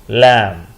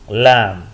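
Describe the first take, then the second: The two takes are said the same way.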